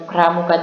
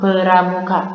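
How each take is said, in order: First: The p and r are joined with no vowel. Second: An e vowel separates the p and r. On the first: The speaker calls it right. "P dan R bunyinya digabung" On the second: The speaker calls it wrong. "ataupun peramuka"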